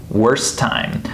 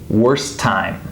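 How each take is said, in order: First: The two T sounds blend into one. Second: The same.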